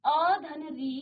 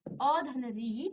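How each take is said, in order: First: Said in the usual way. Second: अ धन री drawn out syllable by syllable; slow, spelled out. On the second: Shown as a demonstration. Teacher breaking अ धन री into slow parts. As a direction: stretch each part of अ धन री for the class.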